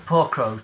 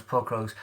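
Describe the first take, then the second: First: Said in the usual way. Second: Softer, lower mock sympathy; mock pity. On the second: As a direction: coo over the poor crows, softly. Pitying crows on a can.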